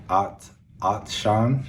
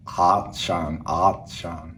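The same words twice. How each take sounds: First: Slow American "Atshan" with a flat A; American English accent. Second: A lightly voiced Austrian "Atshan"; Arnold Schwarzenegger accent. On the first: Learner contrasts accents for thirsty. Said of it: "English accent". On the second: Learner contrasts Arnold accent with American. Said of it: "And Arnold accent". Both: Shown as a demonstration.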